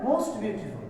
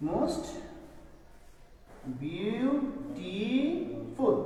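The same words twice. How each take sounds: First: Said in the usual way. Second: "most ... বিউটিফুল" very slow, soft, syllables stretched; drawn-out dictation. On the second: Shown as a demonstration. Teacher writing out the superlative, drawn-out syllables. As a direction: stretch বিউটিফুল as biu-ti-ful after a long pause.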